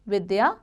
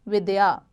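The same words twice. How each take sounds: First: विद्या read as the misspelt form with a lifted end; marked as incorrect word. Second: विद्या said cleanly as /vidyā/ with a settling fall; marked as correct word. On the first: Teacher reads the wrong spelling विद्या to the class, lifting the end. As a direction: say विद्या as the wrong version, rising. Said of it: "अशुद्ध शब्द विद्या". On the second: Teacher gives the correct विद्या to her pupils, falling tune. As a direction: say विद्या correctly and finish low. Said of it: "शुद्ध शब्द विद्या". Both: Shown as a demonstration.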